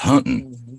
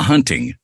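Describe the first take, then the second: First: The word is said in a Texas drawl. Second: The word is said in a plain, neutral accent. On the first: The speaker calls it right. "because he is from Texas" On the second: The speaker calls it wrong. "It's not hunting"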